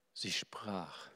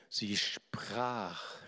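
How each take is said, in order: First: Whisper. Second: Said in the usual way. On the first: Shown as a demonstration. Preacher quoting the woman, now whispered. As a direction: repeat it in a hushed whisper. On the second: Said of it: "sie sprach, (repeated whispered)".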